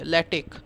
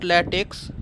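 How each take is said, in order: First: The word ends with a 'k' sound. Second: The word ends with a 'ks' sound. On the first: The speaker calls it right. "This X you re- pronounce it at K" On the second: The speaker calls it wrong. "don't pronounce this as latex. It is not latex"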